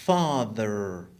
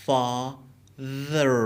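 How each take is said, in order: First: Said in the usual way. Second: Father split as fa, ther; syllable by syllable. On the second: Shown as a demonstration. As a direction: say father in two separated syllables. Teacher breaks word into syllables.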